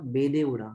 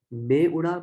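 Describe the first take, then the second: First: Said in the usual way. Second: मैं stressed, said higher and louder; teacher sounding out मैं उड़ा, stress on मैं; testing the sentence aloud. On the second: Shown as a demonstration. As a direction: try out मैं उड़ा with a punch on मैं. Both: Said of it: "देखो ने का sound नहीं आ रहा".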